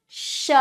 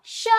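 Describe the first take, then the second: First: श with a lengthened sh hiss; forceful श. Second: Short, brief श; quick श. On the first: Teacher drilling the forceful श, long sh. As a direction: push the sh of श out long. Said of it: "इसको थोड़ा जोर दे के बोलना है". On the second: Teacher drilling the quick श, short sound. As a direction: say श fast without holding the sh. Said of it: "और इसको जल्दी". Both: Shown as a demonstration.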